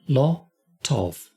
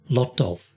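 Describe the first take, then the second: First: The phrase is said very slowly. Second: The phrase is said more quickly. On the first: "let me do this very slowly" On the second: "a little quicker"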